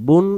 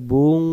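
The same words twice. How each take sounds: First: বুন with a clear short final n; plain n ending. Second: বুং with a long nasal hum at the end; hidden nun. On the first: Teacher giving the ordinary form, বুন ending in plain n. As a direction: close বুন crisply on n. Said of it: "বুন উচ্চারণ হয়". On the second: Teacher showing the concealed nun, বুং ending in held ng. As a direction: hold the ng of বুং. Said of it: "উচ্চারণ করতে হবে". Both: Shown as a demonstration.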